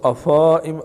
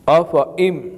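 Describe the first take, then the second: First: The fa vowel is stretched long. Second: The fa vowel is kept short. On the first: The speaker calls it wrong. "फ़ा को नहीं खींचेंगे" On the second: The speaker calls it right. "बल्कि अफ इम"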